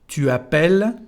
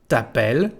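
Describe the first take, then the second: First: The pronoun is said in full. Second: The pronoun is shortened to a t sound.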